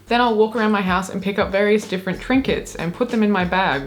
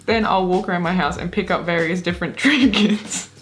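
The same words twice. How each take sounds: First: Said in the usual way. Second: Reading, then bursting into laughter at the end; giggling. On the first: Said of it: "let's just read it and not have the giggles". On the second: Real, not acted. Reading out the trinket hunt, giggling. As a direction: crack up on the last word. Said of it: "if we keep giggling".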